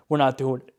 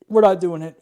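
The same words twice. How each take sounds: First: Said in the usual way. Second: Firm and louder, final word; refusing to cover the pizza box, louder and firm; louder insistence. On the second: Real, not acted. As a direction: put your foot down.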